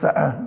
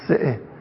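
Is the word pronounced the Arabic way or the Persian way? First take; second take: Arabic way; Persian way. First: The word is pronounced in classical Arabic style. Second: The word is pronounced in everyday Persian style. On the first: This is correct by Arabic grammar. The speaker calls it right. "از نظر ادبیات عرب سعه درست" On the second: This is the common everyday usage. The speaker calls it wrong. "در عرف و ادبیات زبان ما میگیم حدیث سعه"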